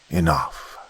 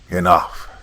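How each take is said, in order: First: It is said more softly. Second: It is said very loudly.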